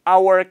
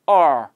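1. 이 단어는 완전한 ow-er 이중모음입니다. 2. 이 단어는 짧은 ar 소리로 약화됩니다. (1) "our라고 안 하고" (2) "u가 떨어지니까 are"

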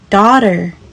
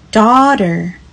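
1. 这是用美式口音说的。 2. 这是用美式口音说的。

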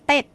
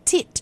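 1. เสียงลงท้ายออกด้วยสระ 'e' เหมือน 'ted' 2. เสียงลงท้ายออกด้วยสระ 'i' เหมือน 'tid' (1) "ไม่ใช่เต็ดที่เราออกกันโดยทั่วๆไป" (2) "ก็จะต้องออกเป็น"

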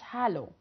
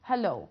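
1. النبر على المقطع الأول. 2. النبر على المقطع التاني. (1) "ما اسمهاش hello" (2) "الستريس بيبقى على البارت التاني من الكلمة"

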